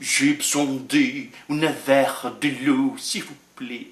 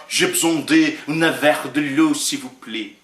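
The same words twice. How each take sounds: First: Slow French request, dropping very soft at the end; French phrase again. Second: Plain spoken French request, trailing off; French phrase. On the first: Preacher repeats the French line, slow French. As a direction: say it slowly in French, let it die away. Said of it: "nenhum brasileiro vai falar". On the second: Preacher jokes a Brazilian won't speak French, in French. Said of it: "Não, isso é francês". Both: Shown as a demonstration.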